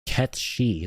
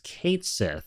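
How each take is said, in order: First: The name ends with a 'shee' sound. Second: The name ends with a 'sith' sound. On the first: This is how the voice actor says the name. "he is pronouncing it Ketshi" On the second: This is how the company says the name. "Square Enix said it's Kate Sith"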